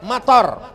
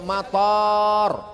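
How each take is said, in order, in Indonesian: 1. Vokal pertama pendek. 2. Vokal pertama panjang. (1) "pendek. Hujan" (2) "Tapi kalau pakai alif"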